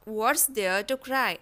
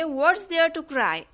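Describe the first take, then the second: First: Extremely slow, softer, falling; slow soft repeat. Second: Very slow, clear; slow dictation. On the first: Teacher echoing softly for learners, slow. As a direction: echo it gently and slowly. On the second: Teacher modelling the sentence for learners, slow. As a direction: model it slowly. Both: Shown as a demonstration. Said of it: "तो इसे हम बोलेंगे".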